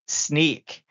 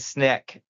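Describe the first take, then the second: First: The name rhymes with the word sneak. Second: The name rhymes with the word sick. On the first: The speaker calls it right. "People are sneaky" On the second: The speaker calls it wrong. "it took everything in me not to say Snick"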